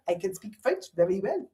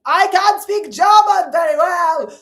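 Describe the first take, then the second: First: Put-on softer, comic French-accented English; English words said in a mock French accent. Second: Put-on loud, slow, barked German accent; high, shouted comic German-accented English; hammed-up German accent at full volume; mock German accent. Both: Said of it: "say English words in their accent".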